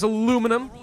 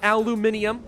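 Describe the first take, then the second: First: The word is said with four syllables. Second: The word is said with five syllables. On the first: "I pronounce it as aluminum" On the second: "not aluminium"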